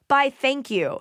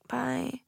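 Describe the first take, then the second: First: It sounds confident and friendly. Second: It sounds timid and shy.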